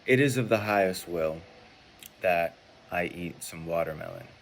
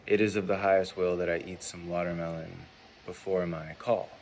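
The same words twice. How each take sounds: First: "It is of the highest will" said louder and firmly; louder, sure demo statement. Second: Said in the usual way. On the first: Shown as a demonstration. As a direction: state it out clearly and firm. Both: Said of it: "So let's say".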